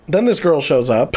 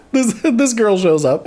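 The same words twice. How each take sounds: First: Said in the usual way. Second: Slow, still giggling as the words come out; laughing through it. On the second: Real, not acted. Retelling the scene to viewers, still laughing. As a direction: try again while you can't stop laughing.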